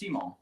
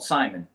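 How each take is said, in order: First: The name is said with a French pronunciation. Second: The name is said the usual English way. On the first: This is the family's real pronunciation. "actually pronounced Simon. Uh, so it's French" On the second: This is how outsiders would expect it. "anywhere outside of Louisiana, you would expect that to be called Simon"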